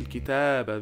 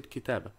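First: The vowel before the final b is held long. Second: The vowel before the final b is cut short. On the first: The speaker calls it right. "They don't say الكتابة" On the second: The speaker calls it wrong. "they are dropping these alifs"

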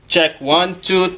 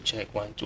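First: It is spoken loudly, at full performing volume. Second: It is spoken quietly, in a soft voice. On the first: The speaker calls it right. "so you need to do the normal volume" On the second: The speaker calls it wrong. "don't test like your own voice only. Okay, avoid like"

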